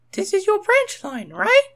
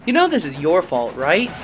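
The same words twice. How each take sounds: First: Very high, loud questioning engine voice; Rosie's high voice. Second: A touch louder accusing voice; scowling. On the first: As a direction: ask brightly in a high girl engine voice. Rosie asks Thomas. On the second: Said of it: "Percy scowled". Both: A narrator's reading.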